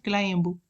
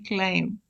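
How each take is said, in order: First: The word ends with an audible B sound. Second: The word ends in M with no B sound. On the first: The speaker calls it wrong. "not climb" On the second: The speaker calls it right. "But it should be climb"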